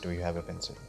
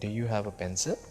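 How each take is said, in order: First: It ends with no questioning tune on the last word. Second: It ends with a questioning tune on the last word. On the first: It does not come across as a real question. The speaker calls it wrong. "This doesn't sound like you're asking a question" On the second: The speaker is really asking something. The speaker calls it right. "the last word should spell like uh, you're really asking"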